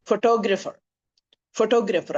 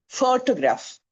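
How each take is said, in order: First: photographer with TO punched; photographer said fo-TO-gra-pher; stress on second syllable. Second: photograph with FO punched; photograph said FO-to-graph; stress on first syllable. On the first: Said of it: "ആ ടോ എന്ന് പറയുന്നിടത്താണ് ആ stress". (Photographer ടോ-യിൽ ഊന്നൽ) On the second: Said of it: "The stress falls on the first syllable". (Photograph ആദ്യ സിലബിളിൽ ഊന്നൽ) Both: Shown as a demonstration.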